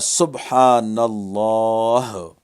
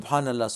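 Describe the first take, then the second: First: It is said slowly with heartfelt feeling. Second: It is said quickly and mechanically, without feeling.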